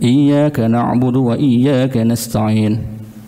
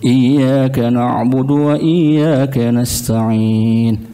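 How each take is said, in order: First: It is recited at a fast pace. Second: It is recited at a slow, measured pace. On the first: "Cepat. Tapi itu pun tartil" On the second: "Itu tartil"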